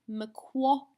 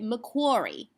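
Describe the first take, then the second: First: It is said in an Australian accent. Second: It is said in an American accent.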